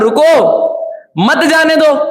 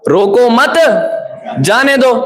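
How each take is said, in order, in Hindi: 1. विराम पहले शब्द के बाद आता है। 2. विराम दूसरे शब्द के बाद आता है। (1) "तो उसने क्या पढ़ा?" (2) "अब उसने क्या पढ़ा?"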